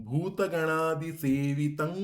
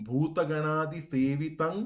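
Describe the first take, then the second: No difference in how they are said.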